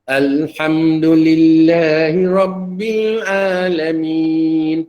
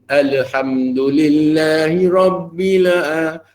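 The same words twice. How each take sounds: First: The L is held still with no release. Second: The L bounces with a slight extra vowel. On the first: The speaker calls it right. "Matikan betul-betul" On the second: The speaker calls it wrong. "Tidaklah bunyi"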